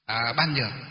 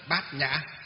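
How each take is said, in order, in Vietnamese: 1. Đọc là 'ban nhuoc'. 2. Đọc là 'bat nha'. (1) "Đọc theo văn chữ Hán là chữ ban nhược" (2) "mà phải phiên âm là gì? Đọc là gì?"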